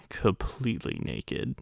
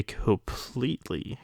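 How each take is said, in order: First: "completely naked" dropped to a soft slow near-whisper; softer, slower second take; hushed aside. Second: Said in the usual way. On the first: Retold or imitated. Repeats the word completely.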